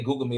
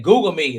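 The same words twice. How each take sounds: First: Said in the usual way. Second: Mock boast. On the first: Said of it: "I hate folks say". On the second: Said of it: "He said, he said".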